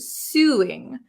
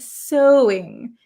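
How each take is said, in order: First: The first vowel sounds like 'sue'. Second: The first vowel sounds like 'so'. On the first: The speaker calls it wrong. "She pronounces this word suing, but that is not how we pronounce it in English" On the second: The speaker calls it right. "this is pronounced so"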